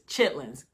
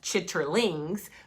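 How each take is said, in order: First: The word is shortened, with sounds dropped. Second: Every letter of the spelling is sounded out. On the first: This is how people in the South say it. "the way you pronounce it is chitlins because I'm from the South" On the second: This is how the word is written. "I would spell the word C H I T T E R L I N G S"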